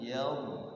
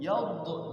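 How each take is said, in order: First: The final consonant is held without any bounce. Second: The final consonant is released with a bounce. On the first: The speaker calls it right. "Padahal dha itu bukan huruf qalqalah" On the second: The speaker calls it wrong. "Kadang dipantulkan dha ini. Yadh gitu tuh"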